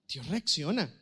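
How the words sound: It is said as a question. The speaker asks whether it is true. "como interrogante"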